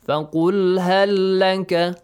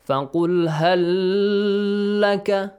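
First: The phrase is said quickly, lams joined. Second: The phrase is said slowly, lams apart. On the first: The speaker calls it right. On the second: The speaker calls it wrong. "do not say ... No, it's wrong"

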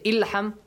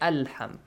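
First: The word begins with an i vowel. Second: The word begins with an a vowel. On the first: The speaker calls it wrong. "you don't say Ilham Ulham" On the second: The speaker calls it right. "you say Alham"

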